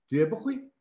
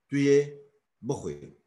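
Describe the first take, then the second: First: The last word is said with strong emphasis. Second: The last word is said plainly, without emphasis. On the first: It asks whether you will eat. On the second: It states that you will eat.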